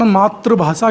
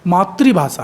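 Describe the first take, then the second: First: The second syllable is said as 'tra'. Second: The second syllable is said as 'tri'. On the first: It means merely a language. The speaker calls it wrong. "Hindi का उच्चारण मातृभाषा के रूप में करते हैं" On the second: It means mother tongue. The speaker calls it right. "सही उच्चारण मातृभाषा है"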